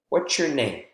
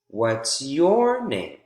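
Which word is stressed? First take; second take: name; your. First: The stress falls on the word name. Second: The stress falls on the word your. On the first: This is a first-time question. "changed from name" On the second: The question is being turned back to the other person. "when I restated the question, changed from name to your"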